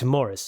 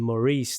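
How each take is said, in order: First: The name is said with English pronunciation. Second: The name is said with French pronunciation. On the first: The speaker calls it right. "but it's Morris" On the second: The speaker calls it wrong. "we all automatically go to the French pronunciation"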